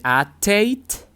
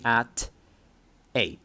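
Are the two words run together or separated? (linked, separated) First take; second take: linked; separated. First: The t sound runs into the next word. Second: The two words are said separately. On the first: The speaker calls it right. "and then at eight" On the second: The speaker calls it wrong. "instead of saying at eight"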